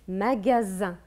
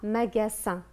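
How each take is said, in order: First: The middle consonant is a voiced z sound. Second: The middle consonant is a voiceless s sound. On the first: The speaker calls it right. "le S, entre deux voyelles, on l'entend Z" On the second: The speaker calls it wrong. "On ne dit pas magasin"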